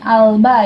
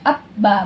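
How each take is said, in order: First: The L is clearly pronounced before the B. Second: The L is merged into a doubled B. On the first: The speaker calls it wrong. "bukan alba ya" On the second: The speaker calls it right. "ini langsung dibaca abba"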